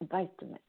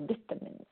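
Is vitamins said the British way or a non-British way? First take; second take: non-British; British. First: It has a non-British pronunciation. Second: It has a British pronunciation.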